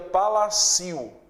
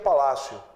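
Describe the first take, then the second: First: The i is a strong vowel in its own syllable. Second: The i glides weakly into the final vowel. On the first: The speaker calls it wrong. "se ele fosse forte ... seria palácio" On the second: The speaker calls it right. "a pronúncia não seria palácio"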